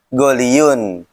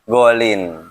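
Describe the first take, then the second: First: The word ends with a full -iyun ending. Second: The word ends shortly with -in. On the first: This is the original form of the word. "Aslinya goliun" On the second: This is an easier form of the word. "Cuma karena susah, jadi golin"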